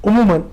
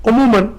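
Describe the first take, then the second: The two takes are said the same way.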